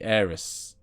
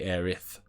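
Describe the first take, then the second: First: The name ends with an s sound. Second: The name ends with a th sound. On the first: This is the speaker's own way of saying it. "I say Aeris" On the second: This is the other person's way of saying it. "if I was gonna say it like you, I would say Aerith"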